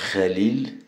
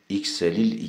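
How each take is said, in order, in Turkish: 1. Kelime tek bir ünsüz sesiyle başlıyor. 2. Kelime 'iks' heceleriyle başlıyor. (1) "doğrusu bu" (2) "değil"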